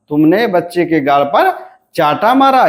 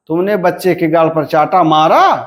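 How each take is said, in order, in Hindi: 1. बलाघात शब्द चाटा पर पड़ता है। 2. बलाघात शब्द मारा पर पड़ता है। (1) "यहां पर बलाघात कहां पर है, चाटा पर।" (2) "यहां पर बलाघात कहां पर हुआ, मारा पर हुआ।"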